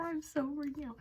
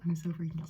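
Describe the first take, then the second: First: Higher, squeaky nervous take; freaking out. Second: Said in the usual way. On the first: Real, not acted. Awaiting test result, squeaky high nervous take. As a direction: let the panic lift the voice.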